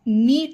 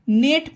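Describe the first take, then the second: First: The vowel is a long 'ee' sound. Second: The vowel is a short 'e' sound. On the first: The speaker calls it wrong. "नीट नहीं पढ़ेंगे, ये गलत होगा" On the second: The speaker calls it right. "इसे नेट पढ़ेंगे"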